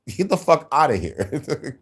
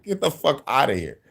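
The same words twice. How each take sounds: First: Laughing dismissal. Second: Said in the usual way. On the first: Real, not acted.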